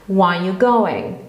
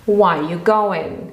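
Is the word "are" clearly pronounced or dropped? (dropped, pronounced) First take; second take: dropped; dropped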